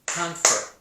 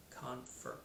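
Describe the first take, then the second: First: "Confer" louder, both syllables marked; syllable demonstration. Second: Said in the usual way. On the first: Shown as a demonstration. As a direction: beat out "Confer" firmly for counting. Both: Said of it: "how many syllables you think you hear".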